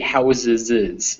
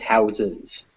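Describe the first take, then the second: First: An extra 'iz' syllable is added at the end. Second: No extra syllable is added at the end. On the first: The speaker calls it wrong. "we would never say houses is" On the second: The speaker calls it right. "It's just houses"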